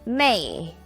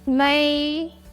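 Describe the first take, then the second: First: The pitch falls sharply from high to low. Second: The pitch stays high and level.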